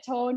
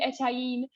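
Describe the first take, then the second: First: The name is said in the Connacht form. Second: The name is said in a non-Connacht form. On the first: This is the form the production chose. "we went with the Connacht version of Eton" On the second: Some people say it should be this form. "I have had people saying it should be Etain"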